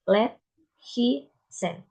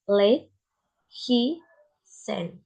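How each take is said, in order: First: "let, he, sent" word by word with short vowels; shorter duration. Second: "late, he, sent" word by word with lengthened vowels; longer duration. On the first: Student giving examples of shorter duration, vowels cut short. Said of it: "the second one is shorter duration". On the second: Student giving examples of longer duration, vowels held. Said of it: "The first is longer duration". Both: Shown as a demonstration.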